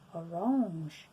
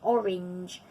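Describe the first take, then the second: First: It is said with a French pronunciation. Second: It is said with an English pronunciation. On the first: "They say orange, orange, which is quite different" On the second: "we say orange, which is a quite a hard sound"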